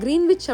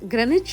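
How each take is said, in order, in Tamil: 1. இது Green-wich என்று சொல்லப்படுகிறது, w உடன். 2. இது Gren-ich என்று சொல்லப்படுகிறது, w இல்லாமல். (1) "தமிழ்ல நாம கிரீன்விச் அப்படின்னு படிச்சிருந்தாலும்" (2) "சரியான உச்சரிப்பு கிரெனிச்"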